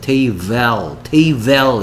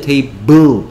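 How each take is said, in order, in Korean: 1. 마지막 음절은 e 모음으로 발음해요. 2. 마지막 음절은 eu 모음으로 발음해요. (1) "테이벨 이렇게 발음합니까?" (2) "테이블이다"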